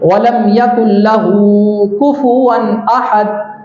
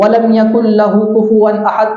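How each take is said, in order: First: The vowel at the end of 'lahu' is drawn out. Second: The vowel at the end of 'lahu' is kept short. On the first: The speaker calls it right. "इसी तरह उल्टे पेश को भी खींचा जाता है" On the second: The speaker calls it wrong. "उसको खींचते नहीं, ... इस तरीके से पढ़ दिया जाता है, तो ये गलत है"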